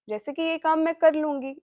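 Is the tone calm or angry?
calm. It is said in a calm tone.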